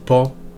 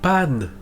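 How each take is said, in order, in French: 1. La voyelle est nasale, sans son n final. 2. La voyelle est orale, avec un n final net. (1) "tu vas tomber sur une définition sans aucun intérêt" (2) "là, tu vas commencer à rentrer dans des choses un peu particulières"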